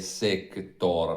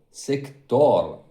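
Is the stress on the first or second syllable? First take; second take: first; second. First: The stress is on the first syllable. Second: The stress is on the second syllable. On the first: The speaker calls it wrong. "non è l'accento sulla E" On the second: The speaker calls it right. "ma è l'accento è sulla O"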